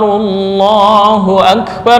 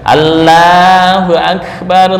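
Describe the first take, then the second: First: The L in Allahu sounds heavy and dark. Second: The L sounds thin, like an Indian accent.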